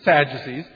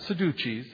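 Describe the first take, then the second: First: The word is pronounced with a plain English accent. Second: The word is pronounced with an Italian-style accent. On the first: The speaker calls it right. "but the Sadducees" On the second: The speaker calls it wrong. "not the Sadducees, that's the Italian way to pronounce it"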